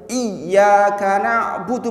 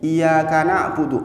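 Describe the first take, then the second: First: The y sound is held and doubled. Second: The y sound is short and single. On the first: The speaker calls it right. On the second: The speaker calls it wrong.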